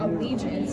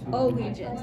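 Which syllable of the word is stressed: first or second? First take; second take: second; first. First: The stress is on the second syllable. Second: The stress is on the first syllable. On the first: The speaker calls it right. "that makes sense. So it's the second one" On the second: The speaker calls it wrong. "that doesn't sound right"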